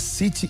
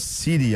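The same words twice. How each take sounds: First: It is said in a British accent. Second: It is said in an American accent. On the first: "O inglês fala City" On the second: "e não City. Americano, aí sim"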